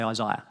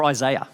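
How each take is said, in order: First: Said in the usual way. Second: Isaiah said the American way, eye-ZAY-uh; American-style Isaiah, middle rhyming with "day"; American pronunciation. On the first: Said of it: "but I'm gonna say Isaiah". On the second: Shown as a demonstration. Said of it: "if you're American".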